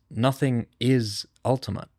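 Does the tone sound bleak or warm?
warm. It is said in a warm, affirming tone. Nothingness itself is the ultimate reality. "no longer a negation, it's a marriage"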